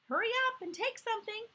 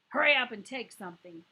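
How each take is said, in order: First: It is said in a plain voice. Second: It is said in a gruff voice.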